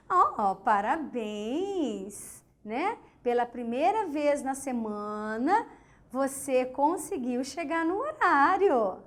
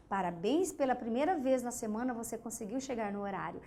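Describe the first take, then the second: First: Slow, drawn-out mock praise; ironic congratulations. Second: Softer, lower recap of the line; quiet restatement. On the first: To a late student, teacher's sarcastic slow congratulations. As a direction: stretch oh parabéns out, sweet on top and cutting under it. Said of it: "você afirma algo, mas você quer dizer outra coisa". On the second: To the class, recapping the sarcastic praise more softly. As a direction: say it again down low as a gentle scolding. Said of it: "é uma puxadinha de orelha". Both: Shown as a demonstration.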